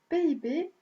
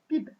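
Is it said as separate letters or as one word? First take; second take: separate letters; one word. First: Each letter is said separately. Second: The letters are read together as one word. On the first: "se prononce comme un sigle, c'est-à-dire lettre à lettre" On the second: "il pourrait se prononcer comme un acronyme"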